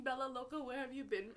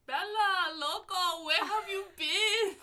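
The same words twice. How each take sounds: First: Only a little raised, lightly retelling the yell; a toned-down echo of the shout; mild retold scream. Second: High, loud, drawn-out shriek of delight; excited scream. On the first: Retelling to friends how she yelled at the dog, mildly raised. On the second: Retold or imitated. Calling across the airport to a wiener dog, a loud delighted scream. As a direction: scream the dog's name like a long-lost friend. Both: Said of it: "I was screaming".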